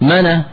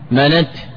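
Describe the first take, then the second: First: The n has a vowel; it ends in h. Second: The n has no vowel; it ends in t. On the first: "بفتح النون وقلب التاء هاء" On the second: "بإسكان النون وسلامة التاء"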